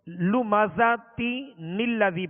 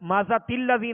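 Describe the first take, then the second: First: An n sound links the two words. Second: The words run together with no n sound. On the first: The speaker calls it right. "जब मिलाएंगे तो लुमाजाती नीलजी पढ़ेंगे" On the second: The speaker calls it wrong. "नहीं पढ़ेंगे"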